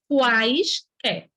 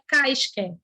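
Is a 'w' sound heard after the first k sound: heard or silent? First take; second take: heard; silent. First: The first k sound is followed by a w sound. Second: The first k sound has no following w sound. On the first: The speaker calls it right. "é quaisquer" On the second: The speaker calls it wrong. "não é caisquer, o mudo"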